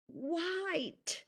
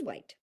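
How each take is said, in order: First: It is said with marked, questioning, displeased intonation. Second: It is said flatly, with no marked intonation. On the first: The speaker does not like it. "there's an extra meaning there" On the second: It carries only the literal meaning of the word. "said without intonation is just the meaning of the word"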